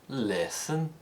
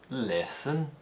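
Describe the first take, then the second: Both takes have the same delivery.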